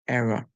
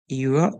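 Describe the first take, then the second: First: The first vowel is a short E sound. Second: The first vowel is a long E sound. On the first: "they use the short sound to say E and R" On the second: "pronounce the E as a long sound to say error"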